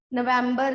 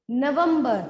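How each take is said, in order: First: नवंबर said with English "vem" in the middle; English-style November. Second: नवंबर as "na-vum-bar"; short uh vowel, "vum", in the middle of नवंबर; Hindi pronunciation. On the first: Teacher showing the wrong month name, English-sounding नवंबर. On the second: Teacher correcting to the Hindi month, firm Hindi नवंबर. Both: Shown as a demonstration. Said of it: "नवंबर नहीं है".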